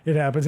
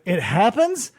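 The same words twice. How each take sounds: First: Low-pitched statement, falling away; suspect's low-voiced admission; matter-of-fact answer. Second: Rising, questioning repeat; mock detective's querying tone; questioning echo. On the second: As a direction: echo it back with a rising end. Detective echoes answer as question.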